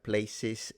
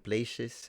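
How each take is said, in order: First: The middle consonant is a plain s sound. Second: The middle consonant is a sh sound.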